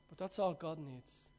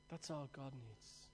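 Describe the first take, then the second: First: Said in the usual way. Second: Quiet echo. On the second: Real, not acted. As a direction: repeat "That's all God needs" much softer, almost to yourself.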